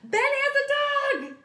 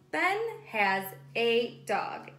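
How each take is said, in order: First: It is said with lots of excited expression. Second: It is said plainly without extra expression.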